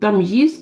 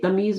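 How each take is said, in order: First: A 'y' glide comes before the long 'ee'. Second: A plain long 'ee' with no 'y' glide. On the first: The speaker calls it right. "तो तमयीज कहेंगे" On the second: The speaker calls it wrong. "तमीज नहीं कहेंगे"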